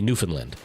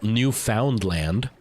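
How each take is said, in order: First: The name is said in the local way. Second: The name is read out as it is spelled. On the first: "then they say Newfoundland" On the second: "actually spelled Newfoundland"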